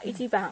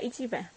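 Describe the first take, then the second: First: It is said with a Japanese accent. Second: It is said with a Myanmar accent.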